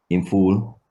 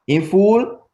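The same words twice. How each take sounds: First: IN FULL said low, as a statement; pitch going down. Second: IN FULL pitched high, climbing sharply on FULL; sharp rise. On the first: Teacher showing what a statement sounds like, low statement intonation. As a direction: keep IN FULL down as a plain statement. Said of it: "Your pitch goes down". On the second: Teacher contrasting question with statement, sharply rising question intonation. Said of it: "you do a sharp rise". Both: Shown as a demonstration.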